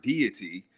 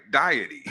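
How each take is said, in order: First: "deity" said DEE-ih-tee; usual pronunciation. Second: "Deity" said DIE-ih-tee, like "diet" plus y; said as spelt. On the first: Man looking at the written word, "deity" as DEE-ih-tee. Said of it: "if you look at the word deity". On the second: Man sounding out the spelling, "Deity" as DIE-ih-tee. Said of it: "if you just pronounce it like it looks". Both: Shown as a demonstration.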